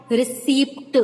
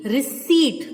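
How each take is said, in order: First: "receipt" with the P wrongly sounded, "re-seept"; mispronounced receipt. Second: "receipt" with a silent P, ending in "-seet"; correct pronunciation of receipt. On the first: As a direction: pop an audible P before the T in "receipt". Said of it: "it's not receipt". ("receipt" में P बोलकर, "रिसीप्ट") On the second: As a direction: say "receipt" clearly and firmly, no P sound. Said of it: "Let me repeat". ("receipt" में P silent, "रिसीट" बोलें) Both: Shown as a demonstration.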